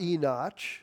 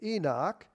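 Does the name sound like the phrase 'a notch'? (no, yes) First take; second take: yes; no. First: The name sounds like the phrase 'a notch'. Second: The name does not sound like 'a notch'. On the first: The speaker calls it wrong. "it's not Enoch, as one man told me" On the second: The speaker calls it right. "A notch is what you put in a tree"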